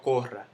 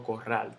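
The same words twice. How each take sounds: First: "corral" stressed on CO; misplaced stress. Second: Said in the usual way. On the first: Shown as a demonstration. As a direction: lean on the first syllable of "corral" as a wrong example. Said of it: "Yo no digo". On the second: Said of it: "yo digo".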